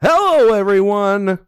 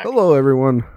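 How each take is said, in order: First: It is said with very high energy. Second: It is said with low energy.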